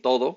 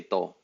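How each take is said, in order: First: Said in the usual way. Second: "to." said as one short syllable, the "do" dropped; clipped "to". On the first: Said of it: "Instead of saying". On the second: Shown as a demonstration. A teacher shows learners the shortened "to." for "todo". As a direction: cut "todo" down to just "to.". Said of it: "we'll say".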